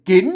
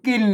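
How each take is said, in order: First: The word is said with a rising tone. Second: The word is said with a low tone. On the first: "เสียงจัตวา" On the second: "เสียงเอก"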